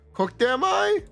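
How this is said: It is said in a Yoda impression voice.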